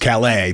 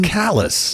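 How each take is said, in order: First: The name is said with a French pronunciation. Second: The name is said with a local English pronunciation. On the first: It names the town in France. "The real Callus in France is Calais" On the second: It names the town in Maine. "but no, not in Maine. It's Callus"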